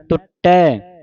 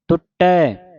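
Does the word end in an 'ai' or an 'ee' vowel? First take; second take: ai; ai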